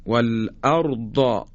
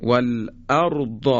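First: والارض slow with final ض held and released; والارض with ض held then released; long dhad. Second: Slow والارض ending in a stretched ض; والارض with a long ض ending; long dhad. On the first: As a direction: stretch the last ض in والارض. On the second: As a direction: draw out the final ض of والارض. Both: Shown as a demonstration. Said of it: "یا".

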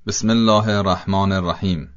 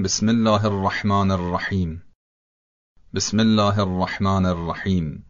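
First: الرحمن and الرحیم with a short single R; single light R in الرحمن and الرحیم; undoubled R. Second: الرحمن and الرحیم with a held, trilled R; long double R in الرحمن and الرحیم; doubled R. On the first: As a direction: drop the doubling on R in الرحمن الرحیم. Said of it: "تشدید ر از بین رفته". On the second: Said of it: "درستش اینه که بگیم". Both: Shown as a demonstration.

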